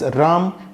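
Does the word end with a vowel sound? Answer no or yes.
no. The final vowel is dropped. This is how North Indians say it. "Ram in North India"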